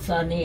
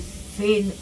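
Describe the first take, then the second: First: The name is said with two syllables. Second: The name is said with one syllable. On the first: "माझं आडनाव साने आहे" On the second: "इंग्लिशमध्ये सेन असा त्याचा उच्चार होतो"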